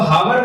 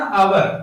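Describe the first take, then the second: First: The word starts with an h sound. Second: The word starts with a vowel sound. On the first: The speaker calls it wrong. "इसको हावर मत पढ़ना" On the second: The speaker calls it right. "एच silent है"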